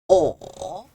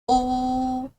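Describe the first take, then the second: First: It is said with the third tone. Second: It is said with the first tone. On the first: "Third tone" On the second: "First tone"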